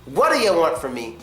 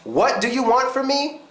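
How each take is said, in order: First: 'What do you' runs together into one quick word. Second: Each word of 'what do you' is said separately. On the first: The speaker calls it right. "is pretty cool. It's more casual" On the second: The speaker calls it wrong. "is not cool"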